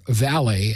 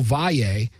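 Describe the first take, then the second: First: The name is said with an anglicized pronunciation. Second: The name is said with a Spanish pronunciation. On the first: This is how outsiders commonly say it. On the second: This is the name's own pronunciation.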